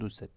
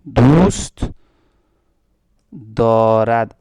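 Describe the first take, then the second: First: The verb ends shortened as dare. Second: The verb ends fully as darad. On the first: This is the spoken form. "दाल ए में कन्वर्ट होगा" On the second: This is the full written form. "Spoken कर दें इसको"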